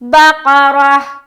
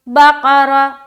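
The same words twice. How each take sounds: First: The word ends with a clear h sound. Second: The word ends with no h sound. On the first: The speaker calls it right. "आखिर में हा की आवाज साफ सुथरी सुनाई आनी चाहिए" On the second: The speaker calls it wrong. "एंड में हा की आवाज नहीं आ रही है"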